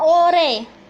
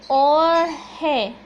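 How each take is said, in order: First: No h sound is heard in the middle. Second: An h sound is heard in the middle. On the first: "tapi dibacanya ore" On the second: "romanisasinya seperti ini ya"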